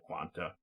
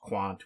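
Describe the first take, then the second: First: The name ends with a final 'a' sound. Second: The name ends without a final vowel sound. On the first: The speaker calls it right. "more acceptable or correct pronunciation" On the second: The speaker calls it wrong. "just pronounced Quant without the A at the end"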